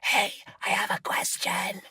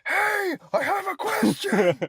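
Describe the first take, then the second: First: It is a whisper said as loud as possible. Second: It is a yell said as quietly as possible.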